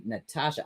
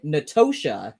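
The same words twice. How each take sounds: First: Natasha said with an ah sound, nuh-TAH-sha; the middle vowel open like father: Natasha; corrected Natasha. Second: Natosha said with an oh sound, noh-TOH-sha; wrong Natosha. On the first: Correcting himself for a viewer, Natasha with an ah. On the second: Misreading the chat name as Natosha. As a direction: stress the middle oh: Natosha. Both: Shown as a demonstration. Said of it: "it's actually pronounced Natasha".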